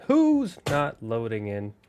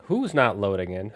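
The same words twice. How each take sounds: First: Drawn out, stretching WHO'S; slow repeat. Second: Said in the usual way. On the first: Real, not acted. Streamer waiting on the game to load, slow repeated question. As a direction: ask it slowly, with a long held "Who's".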